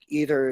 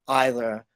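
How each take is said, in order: First: It is said with an American accent. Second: It is said with a British accent.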